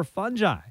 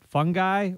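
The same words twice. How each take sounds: First: "fungi" with a soft g, FUN-jye. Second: "fungi" with a hard g, FUNG-guy. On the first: Host weighs two pronunciations, soft-g "fungi" as FUN-jye. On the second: Host weighs two pronunciations, hard-g "fungi" as FUNG-guy. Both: Shown as a demonstration. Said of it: "do I pronounce it".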